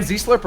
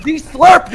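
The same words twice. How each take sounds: First: Slurred past quickly in passing; said too quickly. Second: Z Slurp drawn out, high and loud; emphatic slow repeat. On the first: Slipping a fake word past a podcast co-host, quickly. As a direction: rush Z Slurp so it barely registers. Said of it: "he said it too quickly". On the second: Prankster repeating it for the co-host, slow and emphatic. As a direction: stretch out Z Slurp so nobody can miss it. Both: Real, not acted.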